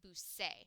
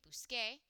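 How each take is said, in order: First: The consonant before the final vowel sounds like s. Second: The consonant before the final vowel sounds like k. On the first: The speaker calls it wrong. "if I had a C there, you pronounce that busse" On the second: The speaker calls it right. "We need the k sound"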